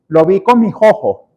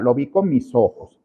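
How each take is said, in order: First: The s before the vowel is breathy and aspirated. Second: The s before the vowel is a full hissing s. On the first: This is how people from Caracas say it. "La S caraqueña es una S que se aspira" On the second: This suits speaking in public. "transformar esa S en una S que no sea aspirada"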